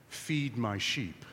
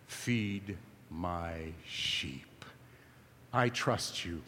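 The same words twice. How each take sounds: First: Slow, softer, weighty; grave and quiet. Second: Slow intimate whisper, much lower and softer. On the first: Jesus answering Peter's declaration, slow and grave. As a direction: drop it down and let it land. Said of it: "Jesus says this". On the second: Jesus leaning in close to Peter, whispering slowly. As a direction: lean in and breathe it. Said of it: "Jesus leans in and says". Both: Acted.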